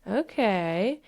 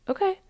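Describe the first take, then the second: First: Long okay rising gradually; voice of the emotion. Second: Very high, brief okay; calm acceptance acted out. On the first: Acted. Emotion balancing itself out, slow tentative acceptance. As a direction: stretch it out, coming round. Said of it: "And then the emotion says". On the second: You reassuring the emotion, chirpy acceptance. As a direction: answer with a tiny chirpy okay. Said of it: "And you just say".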